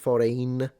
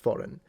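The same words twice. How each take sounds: First: It is said with an Italian accent. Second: It is said with a plain English accent. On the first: "pronounce it foreign in Italian" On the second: "I always pronounce it foreign"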